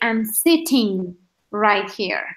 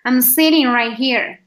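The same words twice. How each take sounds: First: The t in sitting is a clear t sound. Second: The t in sitting sounds like a flapped r. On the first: "in the U K, they're gonna say" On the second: "in America, they're gonna say... like an R sitting"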